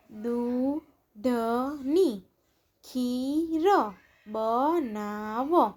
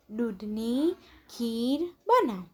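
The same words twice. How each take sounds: First: દૂધની ખીર બનાવ very slow, each syllable stretched; drawn-out દૂધની ખીર બનાવ, syllables separated. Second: Said in the usual way. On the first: Shown as a demonstration. Syllable-by-syllable reading, then blended words.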